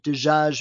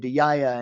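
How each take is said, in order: First: It is said in Standard Arabic. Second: It is said in the Emirati way.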